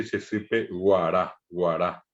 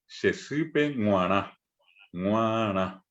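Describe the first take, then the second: First: Guará with a hard oral g, not nasal. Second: Shesipe nguará with nasal ng, ŋwará. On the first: Teacher shows the wrong oral g, hard g. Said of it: "Nadie dice". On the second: Teacher models nasal g for students, nasal ng. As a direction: start nguará with a nasal ng sound. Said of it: "nosotros solemos decir". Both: Shown as a demonstration.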